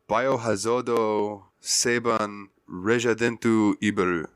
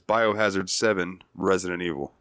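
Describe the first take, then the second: First: The title is said with Japanese pronunciation. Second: The title is said with English pronunciation.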